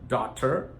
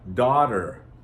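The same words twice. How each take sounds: First: The middle T is a strong, clear T. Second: The middle T is a soft, quick flap. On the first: The speaker calls it wrong. "Most people don't pronounce it daughter" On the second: The speaker calls it right. "Notice, da, da, daughter"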